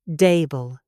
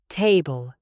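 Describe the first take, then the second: First: The first sound is a flat, D-like sound. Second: The first sound is a T with breath. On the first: The speaker calls it wrong. "If you say these words without the breath, they will sound flat. They will sound like a D" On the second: The speaker calls it right. "We want time, table"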